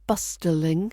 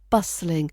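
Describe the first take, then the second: First: The middle T is clearly pronounced. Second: The middle T is silent. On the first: The speaker calls it wrong. "Not bustling" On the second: The speaker calls it right. "That T in the middle is pretty much silent"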